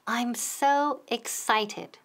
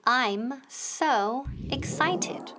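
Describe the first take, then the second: First: Said in the usual way. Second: Slow, separated words for repeating; slow teacher's drill with gaps. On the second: Shown as a demonstration. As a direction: model "I'm", "so", "excited" one at a time.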